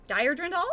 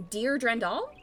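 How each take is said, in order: First: "Dire" said to rhyme with "fire"; unsure pronunciation. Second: Drendal with first word "Dear" said like "deer"; unsure pronunciation. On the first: Host second-guessing a name, trying "Dire" rhyming with "fire". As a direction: try "Dire" with a long i, questioning. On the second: Host unsure of a name, trying "Dear" as "deer". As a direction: try "Dear" with an ee sound, questioning. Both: Real, not acted. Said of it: "I'm not certain how to say that".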